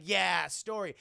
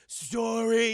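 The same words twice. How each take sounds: First: Said in the usual way. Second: Loud, drawn-out one-word question; childlike giant robot. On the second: Retold or imitated. Iron Giant asking Hogarth about the story, childlike. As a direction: echo it like a curious giant.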